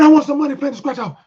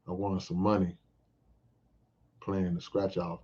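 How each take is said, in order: First: It is said excitedly with high energy. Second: It is said flatly with low energy. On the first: The news draws attention and excitement back. The speaker calls it right. "my excitement bounces off of them" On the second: The news gets only a lukewarm reaction. The speaker calls it wrong. "If I say it like that"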